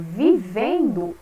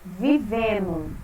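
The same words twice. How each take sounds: First: The ending keeps the 'nd' sound. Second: The 'nd' is reduced to a plain 'n'. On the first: "ao invés de eu falar vivendo" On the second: "eu falo vivendo"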